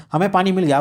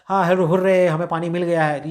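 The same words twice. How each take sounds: First: Said in the usual way. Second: Happy. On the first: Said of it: "फिर बोला है हाथियाँ खुशी से". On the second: Shown as a demonstration. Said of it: "वो बोला है खुशी से".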